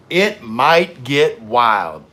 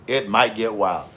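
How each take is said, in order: First: It might get wild, slow and louder; slow dramatic delivery. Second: Said in the usual way. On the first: Shown as a demonstration. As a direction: drag it out for effect. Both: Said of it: "the emphasis should have been on might".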